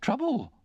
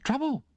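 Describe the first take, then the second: First: Trouble! high and falling, an outraged exclamation; indignant exclamation. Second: Trouble? on a sharp high rising question; incredulous echo. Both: Acted. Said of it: "echoed my sister".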